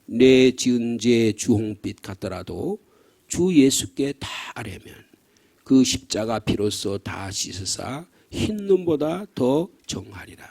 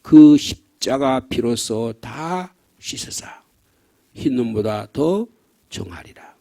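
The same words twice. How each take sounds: First: Slow, solemn recitation of the hymn verse; hymn lyrics read slowly. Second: Very slow, dropping to a hush at the end; slow fading hymn recitation. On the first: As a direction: read each word slowly and gravely. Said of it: "시작". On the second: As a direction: let the verse die away into softness. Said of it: "사백십삼 장의 고간에는". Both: Shown as a demonstration.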